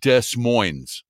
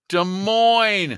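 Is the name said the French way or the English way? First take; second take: English; French. First: The name is said in an un-French, anglicized way. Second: The name is said in a French-like way. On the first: This is how the Washington town is called. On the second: This is how the Iowa city is called.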